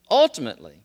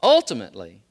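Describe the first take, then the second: First: Emphatic pulpit stress; stress on ultimately. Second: Ultimately louder, falling hard; repeated emphatic stress; stress on ultimately again. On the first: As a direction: ultimately hit loud and heavy. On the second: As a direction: drive ultimately home. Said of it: "one more time". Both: Shown as a demonstration.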